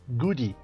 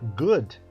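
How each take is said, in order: First: An extra ee vowel follows the final d. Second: The word ends cleanly on the d sound. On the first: The speaker calls it wrong. "nós falamos goody" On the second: The speaker calls it right. "ao invés de falar good"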